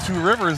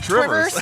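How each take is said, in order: First: The name is said in full as two words. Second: The name is squeezed into one short word. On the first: "I'm not from Two Rivers either" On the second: "and I don't say Trivers"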